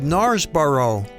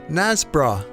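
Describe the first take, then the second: First: The name is said as its spelling suggests. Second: The name is said the local Yorkshire way. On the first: The speaker calls it wrong. "from the spelling it might look to some people that it's called" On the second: The speaker calls it right. "the locals just say"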